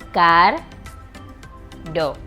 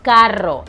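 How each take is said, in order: First: The r is a single tap, split. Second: The r is a rolled trill. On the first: "you're going to say car with the soft R and then ro" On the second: "for the strong sound, for the R ... a vibration in your tongue"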